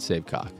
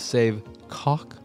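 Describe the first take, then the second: First: The name is said plainly with no accent. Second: The name is said with an exaggerated accent. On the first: "just straight" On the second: "some bit of stank put on it, a bit of an accent"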